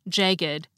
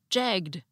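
First: The ed ending is its own extra syllable. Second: The ed ending is only a final consonant. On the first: "had the same unusual pronunciation of the suffix ed" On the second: "pronounced like most English words ending in ed"

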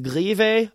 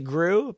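First: The name is said in a Swedish way. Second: The name is said in an anglicized way. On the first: The speaker calls it right. "the Swedish pronunciation" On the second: The speaker calls it wrong. "Most people would say Gru"

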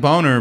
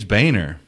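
First: The first syllable sounds like 'bone'. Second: The first syllable does not sound like 'bone'. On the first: This is how the spelling suggests it is read. The speaker calls it wrong. "It looks like Boner" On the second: This is how the person himself says it. The speaker calls it right. "he'll tell you it's Boehner"

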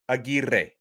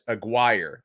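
First: The R sound is strongly rolled. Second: The R sound is not rolled. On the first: "should be pronounced Aguirre, and I'm going to really roll the R's for emphasis" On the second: "I heard his coach refer to him as Aguirre"

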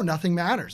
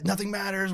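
First: It is said in a light, carefree tone. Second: It is said in a gloomy, despairing tone. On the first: One feels free to do anything one wants. "I can do whatever the fuck I want" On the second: Life feels pointless because we all die. "an existentialist phase"

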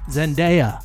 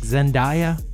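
First: The name's ending does not rhyme with papaya. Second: The name's ending rhymes with papaya. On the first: The speaker calls it right. "It is [name]" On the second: The speaker calls it wrong. "it is not pronounced as papaya, like [name]"

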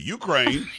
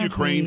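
First: It is said in a Southern American accent. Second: It is said in a standard American accent. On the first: "In South Carolina, is it Ukraine?" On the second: "isn't it Ukraine, first of all?"

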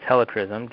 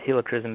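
First: The start sounds like 'helicopter'. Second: The start does not sound like 'helicopter'. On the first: The speaker calls it right. "just like a helicopter" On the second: The speaker calls it wrong. "It's not Helichrysum"

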